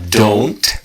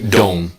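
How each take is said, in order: First: The final T sound is pronounced. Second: The final T sound is dropped. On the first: "the word don't is" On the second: "is really don't. T is silent"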